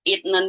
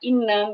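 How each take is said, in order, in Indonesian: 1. Ada bunyi t sebelum n. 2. Tidak ada bunyi t sebelum n.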